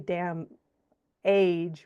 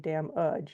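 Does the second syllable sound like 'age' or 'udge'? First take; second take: age; udge. First: The second syllable sounds like age. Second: The second syllable sounds like udge. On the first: The speaker calls it wrong. "You don't say damn age, right?" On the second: The speaker calls it right. "We say damn udge. It's this uh sound"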